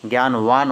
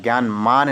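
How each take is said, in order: First: "ज्ञानवान" with v in the last syllable; correct form demonstrated. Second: "ज्ञानमान" with m in the last syllable; wrong form demonstrated. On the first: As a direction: end "ज्ञानवान" on vaan. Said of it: "ज्ञानवान होता है". ("ज्ञानवान" में वा) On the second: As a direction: end "ज्ञानमान" on maan. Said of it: "ज्ञानमान नहीं होता है". ("ज्ञानमान" में मा) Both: Shown as a demonstration.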